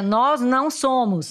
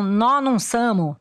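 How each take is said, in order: First: It is said in a full standard Portuguese pronunciation. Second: It is said in a reduced countryside São Paulo accent. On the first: "no português tradicional" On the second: "reconheci na hora a expressão do interior paulista raiz"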